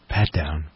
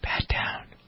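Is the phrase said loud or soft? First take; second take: loud; soft. First: It is said somewhat louder than before. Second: It is said very softly and quietly. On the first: "a little bit louder" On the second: "says in his softest voice"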